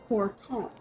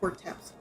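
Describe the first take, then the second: First: The name ends with an 'm' sound. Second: The name ends with a 'ps' sound. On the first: The speaker calls it right. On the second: The speaker calls it wrong. "not Forteps"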